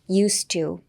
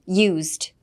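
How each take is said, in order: First: The s is voiceless, sounding like s. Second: The s is voiced, sounding like z. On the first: Something done habitually in the past. "文章で使うとused to。S になります" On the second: Second-hand, not new. "単体でused のZ の発音"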